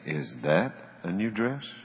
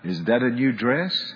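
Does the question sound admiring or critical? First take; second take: critical; admiring. First: The question sounds doubtful and critical. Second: The question sounds warm and admiring. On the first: The speaker disapproves of the dress. The speaker calls it wrong. "If I say the second one, I better duck" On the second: The speaker likes the dress. The speaker calls it right. "If I say the first one, it's going to be a good night"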